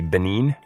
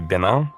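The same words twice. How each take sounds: First: The name is said with a Norwegian pronunciation. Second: The name is said with a French pronunciation. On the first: "we say Benin" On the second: "if the French would say Benin"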